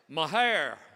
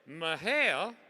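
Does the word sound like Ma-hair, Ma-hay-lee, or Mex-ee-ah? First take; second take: Ma-hair; Ma-hay-lee. First: The word sounds like Ma-hair. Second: The word sounds like Ma-hay-lee. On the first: The speaker is from Texas. The speaker calls it right. "Texans say it this way" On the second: The speaker is nearly local. The speaker calls it wrong. "you're close"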